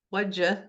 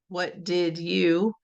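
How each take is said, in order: First: The middle word is reduced to a d sound. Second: The middle word is pronounced in full. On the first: "like, what'd you" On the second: "instead of what did you"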